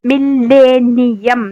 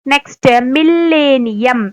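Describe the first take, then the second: First: millennium drawn out slowly, each syllable pressed; stressed slowly. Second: Said in the usual way. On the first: Shown as a demonstration. (Millennium തറപ്പിച്ച് പതുക്കെ) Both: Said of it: "തറപ്പിച്ച് പറയാം".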